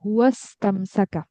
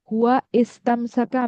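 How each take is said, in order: First: The initial vowel is dropped and the words are joined. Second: The two words are said separately, with the initial vowel. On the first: The speaker calls it right. "আমি বলবো হুয়াস্তামসাকা" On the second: The speaker calls it wrong. "আমি বলবো না"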